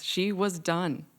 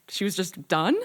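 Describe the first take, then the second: First: "done" set down slowly as final; slow, settled statement closing firmly on "done". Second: "done" rising into a question; incredulous question. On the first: A narrator's reading. Narrator confirming mother has quit cooking, slow and final. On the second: Retold or imitated. Family stunned that mother has quit cooking, incredulous rising question. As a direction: lift the end on "done" in mock disbelief.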